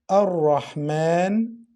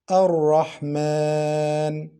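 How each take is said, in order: First: The long vowel is held for two beats. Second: The long vowel is held for four beats. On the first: "you can prolong the lengthening letter for two beats" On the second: "or you can prolong it for four beats"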